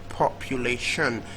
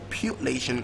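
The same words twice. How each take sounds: First: The stress is on the last syllable. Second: The stress is on the second syllable. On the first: "last syllable" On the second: "second syllable"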